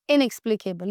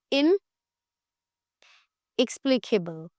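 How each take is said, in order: First: Said in the usual way. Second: Word split after the first syllable by a long pause; इनएक्सप्लिकेबल said slowly in two parts, इन, then the rest; broken into parts. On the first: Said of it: "कैसे बोलेंगे?". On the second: Shown as a demonstration. Teacher giving the class a new word, broken into parts. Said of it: "उसको हम क्या बोलेंगे?".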